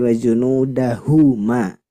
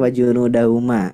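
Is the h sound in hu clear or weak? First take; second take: clear; weak. First: The h sound in hu is clear. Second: The h sound in hu is weak. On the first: The speaker calls it right. "hu-nya harus jelas" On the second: The speaker calls it wrong. "Tidak boleh"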